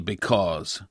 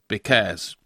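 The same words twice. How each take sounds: First: The word has its standard English pronunciation. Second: The word has a regional dialect pronunciation. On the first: This is the form the speaker's community did not use. The speaker calls it wrong. "'Cause us didn't say because" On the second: This is the form the speaker's community actually used. The speaker calls it right. "us said because"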